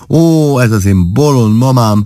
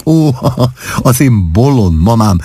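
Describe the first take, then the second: First: Helpless laugh, stress on bolond; laughing harder. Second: Giggling fondly through the words; laughing. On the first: Wife laughing until she cries, stronger laugh. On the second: Wife laughing at her mother's remark, giggling. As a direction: laugh it out at silly mama. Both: A narrator's reading. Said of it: "Klárika úgy kaszagott".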